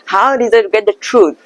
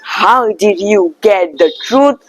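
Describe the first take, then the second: First: Did and you blend into one dza sound. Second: Did and you are said as separate words. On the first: The speaker calls it right. "I said that" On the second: The speaker calls it wrong. "I didn't say that"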